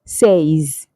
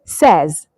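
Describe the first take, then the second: First: "says" as saze, with a long ay; wrong pronunciation. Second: "says" as sez, with a short e; careful, clear "says" with no "ay" glide; correct pronunciation. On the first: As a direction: say "says" like "say" plus z. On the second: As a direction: model "says" to rhyme with fez. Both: Shown as a demonstration. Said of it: "not says".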